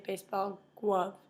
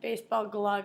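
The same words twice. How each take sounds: First: Glove is said with a W instead of L. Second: Glove is said with a clear L sound. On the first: The speaker calls it wrong. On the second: The speaker calls it right.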